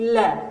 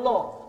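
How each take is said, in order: First: The vowel is light and open, sounding thin. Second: The vowel is heavy and rounded, sounding thick. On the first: The speaker calls it right. "tapi la, tipiskan" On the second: The speaker calls it wrong. "entong lo"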